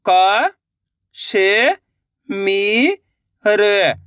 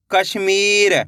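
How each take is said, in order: First: क, श, मी, र held, with gaps; syllable by syllable. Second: कश्मीर joined as one word; blended word. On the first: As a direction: sound out क, श, मी, र one by one. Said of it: "एक एक अक्षर का उच्चारण करके". (क, श, मी, र अलग-अलग) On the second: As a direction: say कश्मीर whole, without breaks. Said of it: "मिलके बन जाएगा". (कश्मीर मिलाकर एक शब्द में) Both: Shown as a demonstration.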